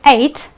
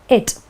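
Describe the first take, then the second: First: The ending is said like 'eight'. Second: The ending is said like 'it'. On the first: "pronounce it as the number eight" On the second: "or it"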